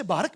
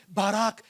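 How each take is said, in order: First: "बारक" with a short second vowel; variant pronunciation. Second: "बाराक" with a long second vowel; preferred pronunciation. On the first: Preacher showing how some people say "बारक", short final vowel. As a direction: say "बारक" as BAA-ruk, short ending. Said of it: "कुछ लोग उसे बारक भी कहते हैं". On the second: Preacher showing his own form "बाराक", long final vowel. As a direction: say "बाराक" as baa-RAAK, long ending. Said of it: "लेकिन बाराक". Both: Shown as a demonstration.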